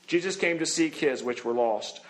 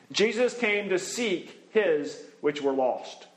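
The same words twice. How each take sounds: First: Said in the usual way. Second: Slow, weighty first reading; slow emphatic statement. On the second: Shown as a demonstration. Preacher stating the first point slowly, deliberately. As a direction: lay it down slowly for the congregation.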